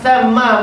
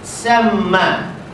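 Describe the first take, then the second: First: The word begins with a soft th sound. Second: The word begins with a hissing s sound. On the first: The speaker calls it right. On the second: The speaker calls it wrong.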